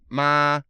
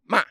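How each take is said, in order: First: The pitch stays high and level. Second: The pitch falls sharply. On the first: "first tone is uh, flat tone" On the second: "fourth tone is falling, like you're cursing at somebody"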